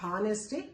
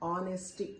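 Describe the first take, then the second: First: The word begins with an h sound. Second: The word begins with a vowel sound. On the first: The speaker calls it wrong. "It's not హానెస్టీ" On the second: The speaker calls it right. "ఇక్కడ గుర్తుపెట్టుకోండి హెచ్ పలకడానికి లేదు"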